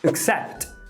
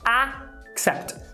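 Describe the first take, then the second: First: The first vowel is a neutral schwa. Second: The first vowel is a full A sound. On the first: The speaker calls it right. "a palavra aceitar em inglês é accept" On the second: The speaker calls it wrong. "A gente vê o A escrito e a gente quer falar accept"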